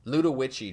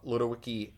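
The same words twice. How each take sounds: First: Ludowici said loo-tuh-wich-ee with a ch sound; corrected pronunciation. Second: Ludowici said loo-doh-wicky with a hard k; wrong pronunciation. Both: Real, not acted. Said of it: "that's Ludowici".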